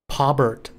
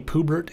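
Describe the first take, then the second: First: The first syllable sounds like 'paw'. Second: The first syllable sounds like 'poo'. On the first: The speaker calls it right. "Their name is Pawbert" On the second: The speaker calls it wrong. "you called me Poobert"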